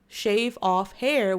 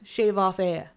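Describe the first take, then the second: First: The H sound at the start of 'hair' is pronounced. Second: The H sound at the start of 'hair' is dropped.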